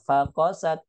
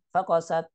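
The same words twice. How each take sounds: First: Fa apart, kosat drawn out; separated words. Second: Fakosat as one short word; run together. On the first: Teacher showing fa split from kosat, separated words. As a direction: say "fakosat" as fa, then kosat. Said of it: "fa-nya dipisah dengan kosatnya". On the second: Teacher showing what not to read, run together. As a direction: say "fakosat" with fa glued on. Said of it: "bukan fakosat". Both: Shown as a demonstration.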